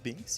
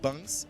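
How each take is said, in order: First: The vowel sounds like the one in 'bink'. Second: The vowel sounds like the one in 'bunk'. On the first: The speaker calls it wrong. "not Binks" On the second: The speaker calls it right. "it's uh, Bunks and not Binks"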